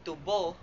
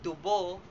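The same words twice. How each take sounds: No difference in how they are said.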